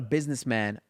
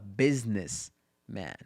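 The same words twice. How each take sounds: First: It is said as one word without a break. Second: There is a break between business and man. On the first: He is a person who runs a business. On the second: He himself is the business.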